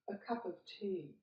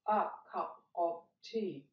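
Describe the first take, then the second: First: The words are run together. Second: The words are said separately. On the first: The speaker calls it right. "mark the words you'll run together" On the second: The speaker calls it wrong.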